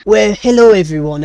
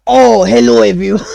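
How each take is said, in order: First: A lighter French chef hello, still a touch raised; French accent. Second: High, loud, hammed-up French greeting; French chef accent. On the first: Acted. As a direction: redo the French greeting, a bit calmer. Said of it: "he still speaks in a French accent". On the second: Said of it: "Chef French, huh?".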